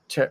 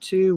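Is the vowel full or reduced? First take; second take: reduced; full. First: The word has a weak, reduced vowel. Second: The word has a full, clear vowel. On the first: "We say fur and t" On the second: "We don't usually say four and two"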